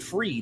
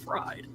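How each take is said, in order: First: The vowel sounds like 'free'. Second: The vowel sounds like 'fry'. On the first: The speaker calls it right. "say Freed instead of fried" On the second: The speaker calls it wrong. "I don't have to say it wrong"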